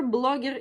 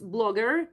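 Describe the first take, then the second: First: "blogger" said as the Russian loanword; "blogger" with a Russian accent; Russian pronunciation. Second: Said in the usual way. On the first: Shown as a demonstration. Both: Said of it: "Blogger is blogger".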